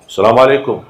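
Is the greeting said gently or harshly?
harshly. The greeting sounds loud and harsh. It is the usual way among Arabs and is not angry.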